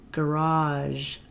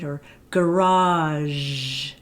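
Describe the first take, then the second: First: "garage" said once more, softer and shorter; just say "garage" normally; quick example. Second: Slow "garage" with a long "zh" ending; drawn-out example. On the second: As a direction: stretch the final "zh" of "garage". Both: Shown as a demonstration. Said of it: "So something like".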